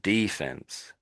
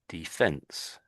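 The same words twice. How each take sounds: First: The stress is on the first syllable. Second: The stress is on the second syllable. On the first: This is the American way of saying it. "they're putting the uh, emphasis on the first E, you could say, the Americans" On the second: This is the British way of saying it. "we're putting the emphasis on the second E"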